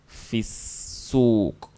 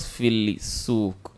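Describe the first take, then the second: First: The l is dropped, blending into the s. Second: The l of the article is clearly pronounced. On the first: The speaker calls it right. "we don't pronounce the lamb. So we say fisuk" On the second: The speaker calls it wrong. "Why not filisuk?"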